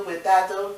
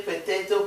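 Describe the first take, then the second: First: Potato as "peh-TAH-toh"; second pronunciation variant. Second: Potato as "peh-TAY-toh"; first pronunciation variant. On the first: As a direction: say potato with an open AH in the middle. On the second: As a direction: say potato with an AY in the middle. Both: Shown as a demonstration. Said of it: "That's your accent".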